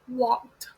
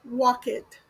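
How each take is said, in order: First: The ending is a plain t sound. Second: The ending is an extra syllable. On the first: The speaker calls it right. "The correct way to pronounce walk when added ed is walked" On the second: The speaker calls it wrong. "The incorrect way is walk it"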